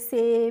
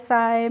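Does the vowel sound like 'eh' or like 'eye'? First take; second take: eh; eye. First: The vowel is a plain 'eh'. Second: The vowel glides like 'eye'. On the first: The speaker calls it right. "इस तरीके से हम इनको पढ़ेंगे" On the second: The speaker calls it wrong. "इस तरीके से नहीं प्रोनाउंस करना है"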